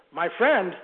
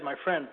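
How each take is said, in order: First: Louder, incredulous "My friend?" with a falling end; an old preacher stunned at the word friend; exclaimed. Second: Said in the usual way. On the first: Retold or imitated. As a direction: echo "My friend?" in disbelief, punching it out. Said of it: "exclaimed the old preacher". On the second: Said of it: "when he said".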